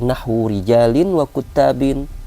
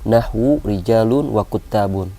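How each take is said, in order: First: Both nouns end with an -in sound. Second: Both nouns end with an -un sound. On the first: The words take the normal genitive ending. "dia mudhafun ilaih dijar dengan kasrah zahirah" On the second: The words keep the quoted original ending. "dijar dengan kasrah muqaddarah ... istighalu al-mahal bi harakati al-hikayah"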